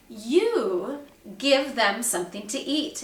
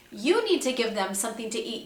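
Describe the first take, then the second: First: "You" leaned on, rising; Jesus handing the job back to them, hitting "You"; stress on you. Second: Said in the usual way. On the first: Retold or imitated. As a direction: put weight on "You", meaning the disciples themselves. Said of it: "he emphasized the word "you". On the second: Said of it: "meaning you disciples".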